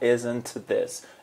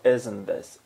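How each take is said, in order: First: The T in "isn't" is clearly pronounced. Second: The T in "isn't" is dropped entirely. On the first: "Não ficou isn't this" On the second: "Sem o T daqui que sumiu. Ficou isn't this"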